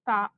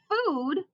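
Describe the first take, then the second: First: The vowel sounds like the one in 'hot'. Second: The vowel sounds like the one in 'moon'. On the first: The speaker calls it wrong. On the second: The speaker calls it right.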